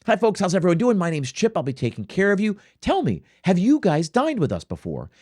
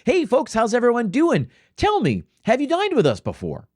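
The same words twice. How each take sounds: First: Bright, friendly server greeting; model server greeting. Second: High, chirpy waiter greeting; bubbly server. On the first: Shown as a demonstration. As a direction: greet the table like a pro waiter. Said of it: "you have to walk over to the table and say". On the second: Retold or imitated. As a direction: gush like an over-eager server. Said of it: "you get some bubbly server walk over and say".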